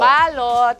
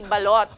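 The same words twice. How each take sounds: First: It is said with a foreign accent. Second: It is said with a native Filipino pronunciation. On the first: The speaker calls it wrong. "Pero yung iba, balot" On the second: The speaker calls it right. "it's supposed to be balot"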